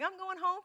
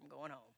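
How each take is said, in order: First: The voice sounds cheerful and eager. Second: The voice sounds weary and reluctant. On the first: Going home is something to look forward to. "it sounds happy" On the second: Going home is something to endure. "oh, Lord"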